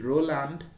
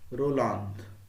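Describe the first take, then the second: First: The name is said with English sounds. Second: The name is said with French sounds. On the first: "here it is Roland" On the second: "in French or any of the French people ... they will say Roland"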